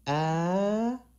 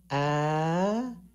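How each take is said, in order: First: The pitch rises high throughout. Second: The pitch rises high throughout.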